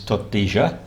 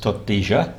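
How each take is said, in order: First: The double L sounds like zh, Rio Platense. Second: The same.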